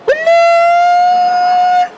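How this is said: It sounds like an excited exclamation.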